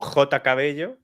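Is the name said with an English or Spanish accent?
Spanish. The name is said with a Spanish accent. This is how locals say the name. "our pronunciation for that name is"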